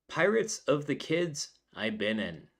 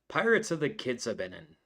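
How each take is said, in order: First: The words are said separately, not blended together. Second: The words blend together to sound like 'Caribbean'.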